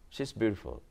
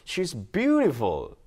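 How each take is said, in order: First: It is said flatly, without feeling. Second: It is said warmly, with feeling.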